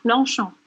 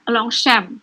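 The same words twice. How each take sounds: First: It is said the French way. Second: It is said the common local way. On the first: This is the proper pronunciation. The speaker calls it right. "Tapi penyebutannya Longchamp" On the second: This is how people usually say it. The speaker calls it wrong. "Biasanya orang nyebutnya Longchamp"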